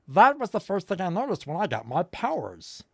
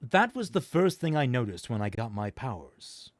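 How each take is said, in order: First: It is spoken in a put-on character voice. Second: It is spoken in the reader's normal voice. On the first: The speaker calls it right. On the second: The speaker calls it wrong.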